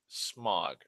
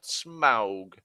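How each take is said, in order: First: The vowel sounds like the one in fog. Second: The vowel sounds like the one in cow. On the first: The speaker calls it right. "that's how his name is supposed to be pronounced" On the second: The speaker calls it wrong. "not Smaug or any fucking variation of it"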